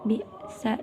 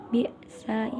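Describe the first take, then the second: Both takes have the same delivery.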